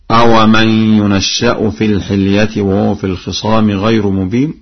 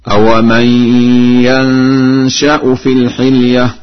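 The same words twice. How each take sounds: First: Said in the usual way. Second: Slow, higher recitation of "ينشأ" as yansha'u, shin undoubled; Warsh reading. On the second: Shown as a demonstration. Teacher demonstrates Warsh's recitation, chanting "ينشأ" as yansha'u. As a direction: chant "ينشأ" with open ya, silent nun, light single shin. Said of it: "بفتح الياء وسكون النون وتخفيف الشين هكذا".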